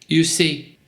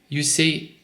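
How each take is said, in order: The two takes are said the same way.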